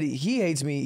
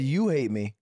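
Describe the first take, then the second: First: "he" picked out as the key word; stress on he. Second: "you" picked out as the key word; stress on you. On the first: Defending the story by contrasting who hates whom, stress on "he". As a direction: lean on "he", said slowly. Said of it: "He said you hate me". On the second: Correcting the friend's version of who hates whom, stress on "you". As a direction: lean on "you", said slowly. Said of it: "you said he hates me". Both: Shown as a demonstration.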